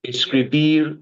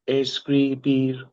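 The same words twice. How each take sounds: First: Said in the usual way. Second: "Escribir" said slowly in three clear syllables; slow syllable demo. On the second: Shown as a demonstration. Tutor shows the student the three syllables, slowly. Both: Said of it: "Three syllables".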